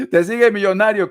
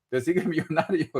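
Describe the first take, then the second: First: Laughing it out, a bit louder and higher. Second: Said in the usual way. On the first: Real, not acted. Tarot reader teasing a caller about her millionaire, laughing. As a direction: tease her through a laugh.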